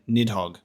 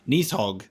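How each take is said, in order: First: The middle consonant is a plain D sound. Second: The middle consonant is a TH sound. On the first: "I've always just pronounced it Nidhogg" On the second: "with the letter D being like a T H sound in, in Norse"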